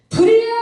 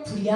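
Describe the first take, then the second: First: It is shouted loudly and urgently. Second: It is said quietly and softly.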